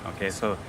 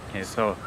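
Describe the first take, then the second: No difference in how they are said.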